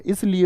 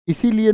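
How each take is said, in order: First: इसलिए with no ई in the middle, three syllables is-li-ye; correct form shown. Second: इसीलिए with a long ई in the middle, four syllables i-see-li-ye; wrong form shown. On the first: Teacher gives students the correct form इसलिए, said crisply as is-li-ye. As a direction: give इसलिए as the right version, short and clipped in the middle. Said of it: "इसलिए होता है". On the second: Teacher shows students the wrong form इसीलिए, said clearly as i-see-li-ye. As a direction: say इसीलिए as the wrong version, stretching the ई. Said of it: "इसीलिए नहीं होता".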